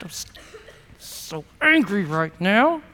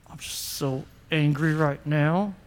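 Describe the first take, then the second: First: Clench and squeeze each word; angry through teeth. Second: Low, soft, seething words pushed through the teeth; angry through teeth. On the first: Pastor models talking through teeth about anger. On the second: Pastor shows the congregation how anger talks, through teeth. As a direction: grit it out through clenched teeth. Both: Shown as a demonstration. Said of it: "Talk through your teeth just like that".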